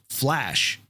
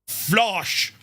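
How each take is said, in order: First: It has an American accent with a flat 'a'. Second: It has a German accent with an 'o' vowel. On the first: The speaker is a friend. The speaker calls it right. "if it's an American accent" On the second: The speaker is a foe. The speaker calls it wrong. "they couldn't pronounce that properly"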